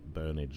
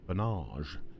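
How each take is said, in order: First: The name is said with a plain accent. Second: The name is said with a posh accent. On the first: "Burnage is how you pronounce it" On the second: "If you're posh"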